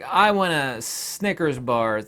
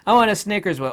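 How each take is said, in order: First: "I want a Snickers bar" drawn out slow and level; plain slow take of the line; slow request. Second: "I want a Snickers bar" higher and louder, stress on "want"; insistent demanding retake. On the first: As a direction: ask for it slowly, calmly. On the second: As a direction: push harder on "want". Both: Shown as a demonstration. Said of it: "Say some of that".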